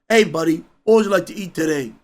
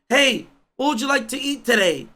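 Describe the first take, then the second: First: It imitates a grown man's voice. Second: It imitates a soft, delicate woman's voice.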